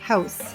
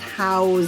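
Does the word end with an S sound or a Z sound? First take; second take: S sound; Z sound. First: The word ends with an S sound. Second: The word ends with a Z sound. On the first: It is a noun, a building to live in. "there's an S" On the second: It is a verb, to give people a place to live. "house with a Z sound"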